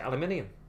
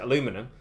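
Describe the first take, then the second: First: It is said the British way, five syllables. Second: It is said the American way, four syllables. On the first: "British people pronounce it aluminium" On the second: "Americans pronounce it aluminum"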